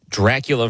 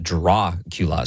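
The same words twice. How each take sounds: First: Said in the usual way. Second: Dracula with a broad "ah" in the first syllable; Drah-cula pronunciation. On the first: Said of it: "the right pronunciation Dracula". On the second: Shown as a demonstration. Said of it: "you said Dracula".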